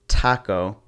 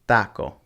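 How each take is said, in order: First: The t is a hard, English-style t. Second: The t is soft, close to a th. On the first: The speaker calls it wrong. "it wouldn't be taco" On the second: The speaker calls it right. "te also has that soft kind of th sound"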